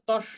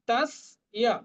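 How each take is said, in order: First: The 's' is doubled with no separate 'ya' sound. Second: A short 's' is followed by a clear 'ya' sound. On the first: The speaker calls it wrong. "আমরা কিন্তু এটা বাংলার মতো তস্য বলবো না" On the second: The speaker calls it right. "অন্তস্থ ইয় দন্ত স এর সাথে, আর দন্ত সটাও অর্ধেক"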